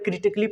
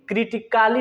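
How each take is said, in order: First: No vowel is heard between the 'c' and 'ly'. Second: A full 'a' vowel is heard before 'ly'. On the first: The speaker calls it right. "पढ़ेंगे" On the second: The speaker calls it wrong. "नहीं पढ़ेंगे"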